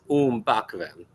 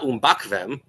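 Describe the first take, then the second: First: The stress falls on the first syllable. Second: The stress falls on a later syllable. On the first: The speaker calls it right. "So the stress is on the first" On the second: The speaker calls it wrong. "It's not umbakvem"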